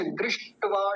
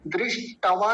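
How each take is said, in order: First: दृष्टवा with a half ट; correct drishtva. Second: दृष्टवा with an extra vowel after ट; wrong drishtava. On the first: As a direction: join ट straight into वा in दृष्टवा. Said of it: "ट आधा है". (आधे ट के साथ दृष्टवा) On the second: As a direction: say दृष्टवा as if ट were full. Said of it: "दृष्टवा नहीं बोलेंगे". (गलत उच्चारण दृष्टवा) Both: Shown as a demonstration.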